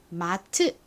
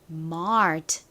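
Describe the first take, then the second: First: It is said as two syllables, ma-teu. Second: It is one syllable with an r after the vowel. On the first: "한국식으로는 마트 이렇게 쓰지만" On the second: "실제 미국식 발음은 mart 이렇게 리을 받침이 들어간 소리가 납니다"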